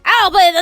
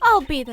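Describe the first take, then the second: First: It is said in a put-on Italian accent. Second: It is said in a plain, unaccented voice.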